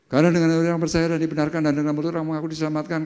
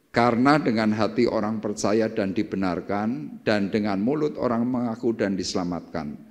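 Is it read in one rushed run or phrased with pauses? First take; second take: rushed; with pauses. First: It is rushed in one run without pauses. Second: It is read carefully with pauses between phrases.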